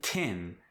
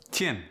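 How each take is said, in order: First: Said in the usual way. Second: South African "tin" with an ee vowel; South African accent. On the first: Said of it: "For instance". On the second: Shown as a demonstration. Teaching vowels before N, South African "tin". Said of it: "it gets the E sound".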